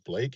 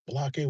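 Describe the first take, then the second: First: The name is said as one syllable. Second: The name has an extra vowel, two syllables. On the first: "my name is Blake" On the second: "he pronounces it Balake"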